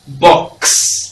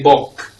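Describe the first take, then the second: First: It ends gliding from a k into s. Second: The s sound is dropped, ending only in k. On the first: The speaker calls it right. "it's actually X" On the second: The speaker calls it wrong. "Or we say bok"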